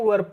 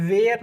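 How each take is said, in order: First: The word sounds like 'wer', a short vowel. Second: The word sounds like 'wear', a long vowel. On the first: The speaker calls it right. "इसको दोस्तों वर्ब पढ़ते हैं" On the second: The speaker calls it wrong. "वेयर नहीं पढ़ते"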